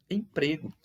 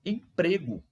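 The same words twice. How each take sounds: The two takes are said the same way.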